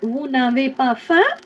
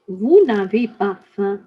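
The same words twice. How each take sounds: First: The pitch rises at the end, like a question. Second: The pitch stays level at the end, like a statement. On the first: It asks whether the listeners are hungry. "it would have been a question" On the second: It states that the listeners are not hungry. "Don't put in any intonation at the end of the sentence"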